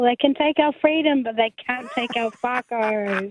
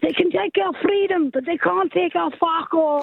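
First: It is said in her own accent. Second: It is said in a Scottish accent.

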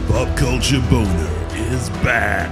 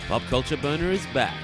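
First: It is said in a dramatic trailer voice. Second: It is said in his normal speaking voice.

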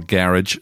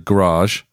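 First: It is said with a Scottish pronunciation. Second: It is said with an American pronunciation. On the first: "as we say in Scotland" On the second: "I use American words"

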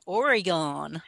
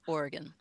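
First: The last syllable sounds like 'gone'. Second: The last syllable sounds like 'gun'. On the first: The speaker calls it wrong. "that's not how we say it" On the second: The speaker calls it right. "We say Oregon. It's like G-U-N"

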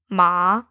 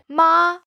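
First: The pitch dips low then rises. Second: The pitch stays high and level. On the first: It means horse. "Our third tone, ma, means horse" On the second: It means mom. "Our first tone, ma, means mom"

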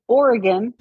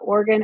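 First: It is said with the middle vowel heard. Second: It is said fast, sounding like organ. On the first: The speaker calls it right. "that's better" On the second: The speaker calls it wrong. "When you said it fast, and it sounded like Oregon, like a body part"

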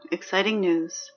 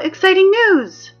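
First: The voice is flat and unenthusiastic. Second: The voice is loud and enthusiastic. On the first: The speaker calls it wrong. "you know you need to sound more excited than that" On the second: The speaker calls it right. "Much better. A little sarcastic"

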